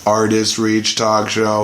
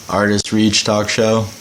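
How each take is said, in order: First: Low, even android monotone; robot voice. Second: Robot voice. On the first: Shown as a demonstration. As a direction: speak it like a machine. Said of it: "Like a robot". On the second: Pretend. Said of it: "Okay, that is better".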